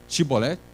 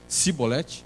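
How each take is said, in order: First: The word begins with an 'sh' sound. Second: The word begins with a plain 's' sound. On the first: The speaker calls it right. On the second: The speaker calls it wrong.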